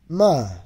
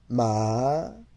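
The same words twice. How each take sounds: First: The syllable is said with the fourth tone. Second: The syllable is said with the second tone.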